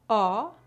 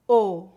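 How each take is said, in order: First: The vowel is said with the mouth wide open. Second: The vowel is said with the mouth more closed. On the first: "Pronúncia aberta" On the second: "Pronúncia fechada"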